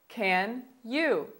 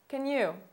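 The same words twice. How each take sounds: First: It is said at a slower pace. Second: It is said at a faster pace.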